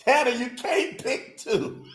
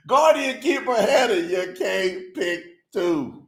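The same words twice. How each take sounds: First: Said in the usual way. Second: Slow mock scolding. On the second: Real, not acted. Host teasing a voter who picked two, slow mock scolding. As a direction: draw out "can't pick two" word by word. Repeats rebuke slowly with full title.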